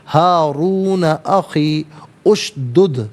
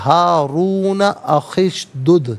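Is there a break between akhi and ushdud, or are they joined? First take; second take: break; joined. First: Akhi and ushdud are read apart with a break. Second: The words run together, dropping the opening vowel. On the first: "अलहदा" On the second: "इसे यूँ पढ़ेंगे"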